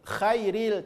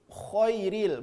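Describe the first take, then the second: First: The kh is followed by a thin, open a vowel. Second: The kh is followed by a thick, rounded o vowel. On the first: The speaker calls it wrong. "Bukan khairil" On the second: The speaker calls it right. "Tapi khoiril"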